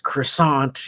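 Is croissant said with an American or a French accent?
American. It is said with an American English pronunciation. The speaker calls it wrong. "it's not pronounced croissant. You, every American is saying it wrong"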